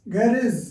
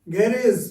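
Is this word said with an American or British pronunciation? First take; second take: British; British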